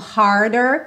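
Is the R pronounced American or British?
American. The R is pronounced, American style.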